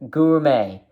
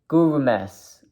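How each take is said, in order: First: The word ends without any S sound. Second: The word ends with an audible S sound.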